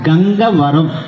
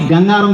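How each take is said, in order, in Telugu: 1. పేరు పూర్తిగా, ప్రతి అక్షరంతో అంటారు. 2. పేరు చిన్నదిగా అంటారు, మధ్య అక్షరం పోతుంది. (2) "మన ఊరి పేరు దయచేసి గంగారం కాదు"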